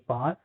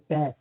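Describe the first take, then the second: First: It is said in a British accent. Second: It is said in an American accent.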